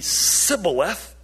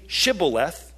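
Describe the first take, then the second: First: The word begins with an 's' sound. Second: The word begins with an 'sh' sound. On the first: The speaker is an outsider and is killed. The speaker calls it wrong. "but only Sibboleth" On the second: The speaker belongs to the group and may cross. The speaker calls it right. "because they couldn't pronounce it right"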